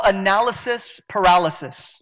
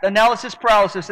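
First: Said in the usual way. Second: Quick attempt at a tongue twister; "Analysis paralysis" run together at speed; fast tongue twister. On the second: Shown as a demonstration. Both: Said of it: "Try to say that ten times fast".

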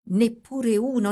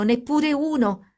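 First: "Neppure uno" with stress on "neppure", slightly raised; a remembered child's reproach, lightly voiced; first echo. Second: "neppure uno!" much higher and slow, "neppure" stretched; the child's disappointed cry returning, slowed and high; higher, slower echo. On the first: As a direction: state "Neppure uno" leaning on "neppure". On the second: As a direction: draw out "neppure uno!" in a high plaintive pitch. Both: A narrator's reading.

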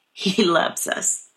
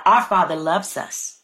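First: Slow whisper, much softer; whispering the repeat to the congregation; hushed whisper. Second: Said in the usual way. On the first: Real, not acted. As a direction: breathe it out slowly and tenderly. Repeats God's love, softening.

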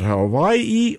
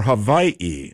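First: Hawaii said slowly with a clear W sound, ha-WHY-ee; pronounced with W. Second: Hawaii said slowly with a V for the W, ha-VYE-ee; pronounced with V. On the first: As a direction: say Hawaii the usual American way, with a W. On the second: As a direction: say Hawaii as "Havaii", with a V. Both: Shown as a demonstration. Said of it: "How do you pronounce that?".

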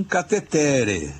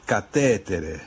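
First: Catetere drawn out slowly, stressed on the third syllable TE; Italian catetere, ca-te-TE-re, higher and slow; less common Italian pronunciation. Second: Catétere stressed on TÉ with a sounded final E; four syllables in catétere, ca-TÉ-te-re; Italian pronunciation. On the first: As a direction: stretch catetere onto its next-to-last syllable. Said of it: "mais correto, porém menos comum". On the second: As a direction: say catétere Italian-style, beat on the second syllable. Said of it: "a pronúncia que eles dão". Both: Shown as a demonstration.

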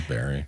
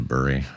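First: Short e in "bury", rhyming with "ferry"; "bury" sounded like the fruit berry. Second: "bury" with the vowel of "fur"; low, "burr-ee" for "bury"; bury rhyming with furry. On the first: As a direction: say "bury" as BERR-ee. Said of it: "'cause it is bury". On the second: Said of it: "I grew up saying bury". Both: Shown as a demonstration.

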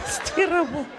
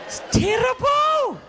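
First: High-pitched complaint; mock lament. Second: Very high, drawn-out wail; exaggerated mock wail. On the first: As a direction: lament it high, holding back slightly. Mock lament, first take. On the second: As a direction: stretch it into a big high cry. Mock lament, bigger repeat.

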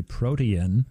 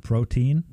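First: "protein" in three syllables, PRO-tee-in; Paul Harvey. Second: Put-on "protein" in two syllables, PRO-teen; usual pronunciation. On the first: Retold or imitated. Recalling a broadcaster's way of saying it, protein as PRO-tee-in. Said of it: "could hear Paul Harvey say". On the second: Shown as a demonstration. Giving the normal version for contrast, protein as PRO-teen. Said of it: "Instead of protein".

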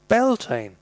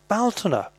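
First: "Beltane" said BEL-tane, two syllables, higher pitch; "Beltane" with an e and a long final ay; Scottish Gaelic pronunciation. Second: "Baltana" said BAL-ta-na, stress on the first syllable; "Baltana" with a broad a and three syllables; Irish pronunciation. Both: Shown as a demonstration. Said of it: "Who's heard Baltana pronounced Beltane".

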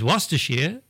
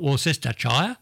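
First: Worcestershire shortened to WUSS-ta-sheer; correct pronunciation. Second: Worcestershire spelt out as wor-SES-ta-shire; wrong pronunciation. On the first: Host giving the right version, Worcestershire as WUSS-ta-sheer. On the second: Host showing the mistake, Worcestershire as wor-SES-ta-shire. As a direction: say every syllable of Worcestershire, rhyming with fire. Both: Shown as a demonstration. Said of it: "not Worcestershire".

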